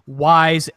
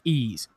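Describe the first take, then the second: First: It is said as one word rhyming with 'wise'. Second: It is said as one word sounding like 'ease'. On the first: The speaker calls it wrong. "if you were going to pronounce it the way it's spelled" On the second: The speaker calls it right. "but it's pronounced Ease"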